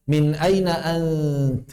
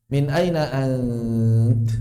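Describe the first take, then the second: First: Drawn-out vowel on aina; long drawn aina; stretched. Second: Aina stretched very long and slow; slow lengthened aina; drawn out. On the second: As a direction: hold the vowel of aina long, Quran-style. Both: Shown as a demonstration.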